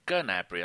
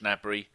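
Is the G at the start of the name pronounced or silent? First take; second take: pronounced; silent. First: The initial G is pronounced. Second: The initial G is silent. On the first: The speaker calls it right. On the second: The speaker calls it wrong.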